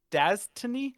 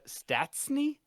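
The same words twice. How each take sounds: First: Stastny as DAZ-tuh-nee, louder and rising; doubtful, high-ended DAZ-tuh-nee for Stastny; second pronunciation attempt. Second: Stastny as STATS-nee, rising into a question; questioning, high-ended STATS-nee for Stastny; unsure pronunciation. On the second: Unsure attempts at a surname. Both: Real, not acted.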